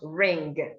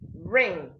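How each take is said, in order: First: The word ends in ng plus a g. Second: The word ends in a plain nasal ng. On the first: The speaker calls it wrong. "not ring" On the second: The speaker calls it right. "the ng in words make the sound ng, not g"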